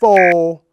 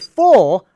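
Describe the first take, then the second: First: The word is cut short. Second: The word is held long. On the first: The speaker calls it wrong. "not full" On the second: The speaker calls it right. "you say full and hold it long"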